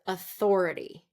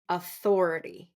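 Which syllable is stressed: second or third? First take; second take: second; second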